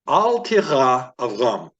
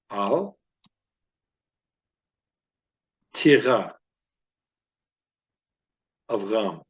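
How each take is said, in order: First: The phrase is read at its fastest pace. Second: The phrase is read at a moderate pace. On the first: "This will be the fastest" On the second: "we're going to increase the reading speed now"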